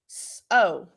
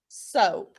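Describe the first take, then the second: First: "S-, O." as two separate sounds, the O held long; sounding out. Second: Said in the usual way. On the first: Shown as a demonstration. Teacher sounding out a word for her class, slow and segmented. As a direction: split "S-, O." into its sounds. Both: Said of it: "how do we pronounce this word now?".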